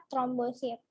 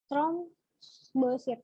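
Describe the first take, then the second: First: Said in the usual way. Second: "Trombosit" drawn out very slowly, syllable by syllable; slow repeat. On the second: Shown as a demonstration. Tutor repeating the term for students, very slowly drawn out. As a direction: stretch "Trombosit" so students catch every sound.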